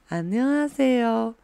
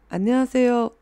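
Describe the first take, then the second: First: The phrase is spoken at a slowed-down pace. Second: The phrase is spoken at a normal, quicker pace. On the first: "如果稍微放慢一点的话" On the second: "우리샤이니가그무대에올라가기전에그런말하잖아요"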